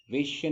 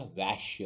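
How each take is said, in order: First: वेश्या as "vay-shya"; closed e in वेश्या; wrong "वे" vowel. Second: वैश्य as "vaesh-ya"; correct "वै" vowel. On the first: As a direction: say वेश्या higher, with a tight "ve". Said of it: "वेश्या नहीं होता". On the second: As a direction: open "ae" in वैश्य. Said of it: "वैश्य होता है". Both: Shown as a demonstration.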